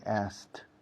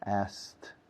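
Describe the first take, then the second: First: The k sound is dropped before the t. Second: The k sound is dropped before the t.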